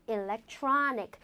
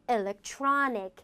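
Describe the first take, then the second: Both takes have the same delivery.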